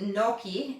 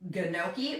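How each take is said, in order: First: The G at the start is not sounded. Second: The G at the start is sounded. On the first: The speaker calls it right. "but you pronounce it gnocchi" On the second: The speaker calls it wrong. "It starts with a G"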